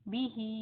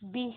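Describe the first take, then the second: First: The word ends with a final 'i' vowel. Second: The word stops on a clear h sound. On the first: The reader continues without stopping. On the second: The reader stops on this word.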